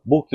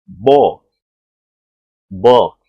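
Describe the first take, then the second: First: Book with a full Portuguese U; the way Brazilians read it. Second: Book with stretched-lip short O; loud model of book; native book. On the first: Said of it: "Aí o brasileiro fala". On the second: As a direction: book said "bok", lips slightly spread. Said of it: "Então não é book, é book". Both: Shown as a demonstration.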